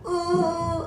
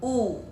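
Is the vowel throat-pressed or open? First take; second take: throat-pressed; open. First: The vowel is pressed tightly in the throat. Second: The vowel is open and free from throat pressure. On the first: The speaker calls it wrong. "menekan di bagian tenggorokan" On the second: The speaker calls it right. "memang mulutnya harus begini"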